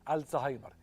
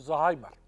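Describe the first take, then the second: First: The word starts with an al sound. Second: The word starts directly with a z sound. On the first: The speaker calls it right. "لما ننطقه ننطقه كده الزهايمر" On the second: The speaker calls it wrong. "ده نطق الدارج وده غلط"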